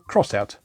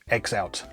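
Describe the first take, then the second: First: The X is said as the word cross. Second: The X is said as the letter name. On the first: The speaker calls it right. "you're supposed to pronounce it Crossout" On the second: The speaker calls it wrong. "not X-Out, as I always assumed"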